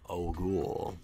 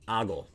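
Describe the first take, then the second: First: The ending is said to rhyme with cool. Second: It is said like the word ogling. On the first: "Now it rhymes with cool" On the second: "Like, are you ogling me?"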